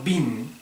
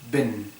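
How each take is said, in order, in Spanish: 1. La vocal es un sonido 'ee' claro y tenso. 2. La vocal está entre 'i' y 'e'. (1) "No bin" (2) "sino ben"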